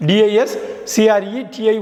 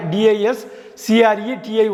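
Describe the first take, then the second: No difference in how they are said.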